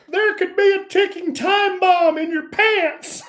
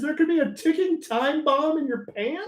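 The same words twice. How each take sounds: First: It is said in a put-on voice. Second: It is said in his normal voice.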